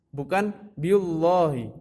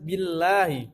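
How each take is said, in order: First: The l in Allah sounds heavy and dark. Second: The l in Allah sounds light and thin. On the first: The speaker calls it wrong. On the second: The speaker calls it right.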